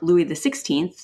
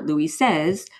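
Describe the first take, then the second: First: The name is said with English pronunciation. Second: The name is said with French pronunciation. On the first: "now styled Louis XVI" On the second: "as the French would say"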